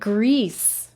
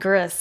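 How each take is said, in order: First: The name sounds like the word grease. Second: The name is said as Gris. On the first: Another person pronounced it this way. "he was calling it Grease" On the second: This is how the speaker pronounces it. "I call it Gris"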